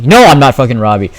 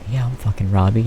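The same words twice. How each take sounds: First: Loud, quick correction; indignant retort. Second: Soft, resigned fake agreement; deadpan sarcasm. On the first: Retold or imitated. Student correcting teacher's wrong name, loudly indignant. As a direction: snap it back, fed up. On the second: Student answering teacher's wrong name, quietly sarcastic. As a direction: mutter it sarcastically.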